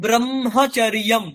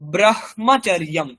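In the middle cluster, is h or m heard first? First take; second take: m first; h first. First: The m sound comes before the h sound. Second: The h sound comes before the m sound. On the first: This is how it is usually said. "উচ্চারণ করছি যেন ময়ের সাথে হ যোগ হয়েছে" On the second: This follows the written order. "যেমন লেখা আছে সেরকম উচ্চারণ করলে"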